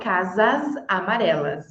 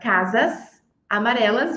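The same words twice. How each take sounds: First: The final s of casas sounds like z. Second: The final s of casas sounds like s.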